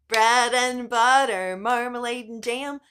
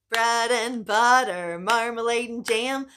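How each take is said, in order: No difference in how they are said.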